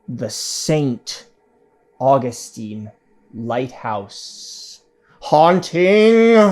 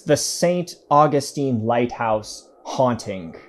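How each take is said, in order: First: It is said slowly and dramatically. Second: It is said at a normal pace.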